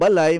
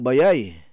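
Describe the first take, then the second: First: The middle consonant is an L sound. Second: The middle consonant is a Y sound. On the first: This is the usual form with the L. "Ang balay" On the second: This is how it is said in Surigao. "ug moadto po kog Surigao ... mahimong bayay"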